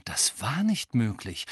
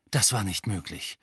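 First: Breathless unvoiced whisper. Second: Said in the usual way. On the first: A narrator's reading. Harry whispering his disbelief to himself. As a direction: hush it, in disbelief. Same thought repeated, whispered.

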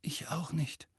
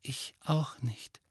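First: Soft, voiceless hoarse murmur; rather hoarse. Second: Slow, soft whisper. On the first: Ron admitting he didn't know either, quietly hoarse. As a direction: let the voice fail into hoarseness. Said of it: "sagte Ron ziemlich heiser". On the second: Ginny admitting she didn't know either, in a slow whisper. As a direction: whisper it, drawing the words out. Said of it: "flüsterte Ginny". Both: A narrator's reading.

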